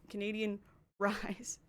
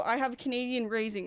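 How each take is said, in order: First: "Canadian Rise", slowly, with RISE set apart after a pause; contrasted term RISE. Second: Said in the usual way. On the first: Shown as a demonstration. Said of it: "that's not the same thing". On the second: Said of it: "if you go".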